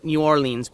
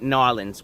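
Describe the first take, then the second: First: The name has the common non-local pronunciation. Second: The name has the local pronunciation. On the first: "I know it's New Orleans" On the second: "which I think is how locals pronounce it"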